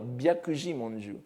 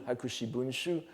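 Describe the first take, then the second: First: The title is read entirely in Go-on. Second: The title is read entirely in Kan-on. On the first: "si se prononcer en Gohon, il faudrait dire Byakuji Monju" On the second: "Hakushi Bunshu étant euh, la, la prononciation Kaon"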